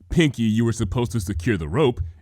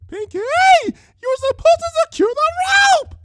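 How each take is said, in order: First: It is read flatly, with no fear. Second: It is said with terrified screaming.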